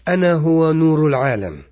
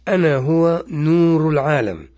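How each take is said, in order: First: It is read at a normal pace. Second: It is read slowly.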